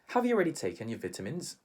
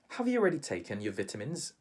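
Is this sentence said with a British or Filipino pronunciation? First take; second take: British; British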